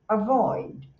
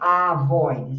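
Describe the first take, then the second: First: The first vowel is a short, weak schwa. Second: The first vowel is a full, clear vowel. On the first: The speaker calls it right. "você faz avoid. É só um suspirinho" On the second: The speaker calls it wrong. "você não faz avoid"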